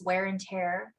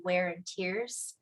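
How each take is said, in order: First: "tear" said to rhyme with "air"; "tear" pronounced exactly like "tare"; tear as in ripping. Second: "tears" said to rhyme with "ears"; "tears" pronounced as teardrops; tears as in crying. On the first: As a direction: say "tear" like tearing paper. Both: Shown as a demonstration. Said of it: "this is a play on words".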